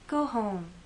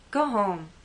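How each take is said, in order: First: It sounds caring and concerned. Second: It sounds angry and dismissive.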